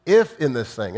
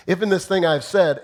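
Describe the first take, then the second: First: "If" hit first and hard, the rest following; stress on if. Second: "in" lifted a little higher and louder; stress on in. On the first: Preacher repeating the quote, pressing on "If". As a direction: lean on "If" in "If in this thing". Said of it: "it starts with the key word". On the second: Preacher mocking the quote by stressing "in". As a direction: push the word "in" in "If in this thing". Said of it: "here's the passive apology". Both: Shown as a demonstration.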